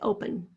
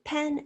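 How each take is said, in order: First: The second syllable has a reduced schwa. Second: The second syllable has a clear short e. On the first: "some people say" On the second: "Some people say"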